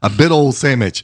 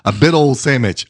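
First: It is said in a heavy regional accent. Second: It is said in a heavy regional accent.

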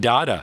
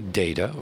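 First: The first vowel is an open 'ah' sound. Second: The first vowel is a long 'ay' sound. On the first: "pronounced like the word data, which, of course, is an art movement" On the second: "pronounced with a long A"

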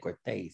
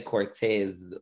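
First: The name ends with a hissing s sound. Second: The name ends with a buzzing z sound. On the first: The speaker calls it right. "They say Cortez" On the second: The speaker calls it wrong. "they don't say Cortez like Z"

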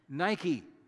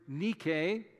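First: It is pronounced as the shoe brand name. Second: It is pronounced as the Greek word. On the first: It is the name of the shoe company. "as it's pronounced by a company in Beaverton, Oregon" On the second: It is the original Greek word for victory. "Translated from the Greek word nike"

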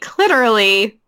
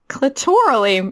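First: The word rhymes with 'literally'. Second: The word does not rhyme with 'literally'. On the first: The speaker calls it right. "It's supposed to be clitorally, like, literally" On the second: The speaker calls it wrong. "you mispronounced the word. You said clitorally"

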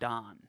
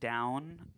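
First: The vowel is a flat short 'o' sound. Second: The vowel is a gliding 'ow' sound. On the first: "like Don" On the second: "pronouncing words like down"

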